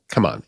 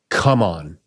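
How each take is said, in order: First: It is said lightly and casually, like an invitation. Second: It is shouted forcefully, like a demand. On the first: It is a gentle invitation to come over. "a very casual" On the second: It is a demand for what is needed. "he is shouting to the cosmos"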